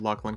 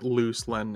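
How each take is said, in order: First: The name is said as Luclin. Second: The name is said as Looselin. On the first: The speaker calls it right. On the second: The speaker calls it wrong.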